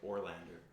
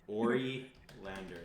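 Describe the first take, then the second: First: The name is said with three syllables. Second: The name is said with four syllables. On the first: "It's like Orlander, but she pronounces as it Ori Lander" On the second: "So it's like Ori Lander"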